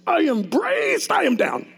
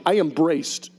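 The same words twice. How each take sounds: First: High, slow, strained effort; slowed and strained, pitched up; straining. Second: Said in the usual way. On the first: Retold or imitated. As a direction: push the words out as if bracing hard. Repeated while fighting to stand.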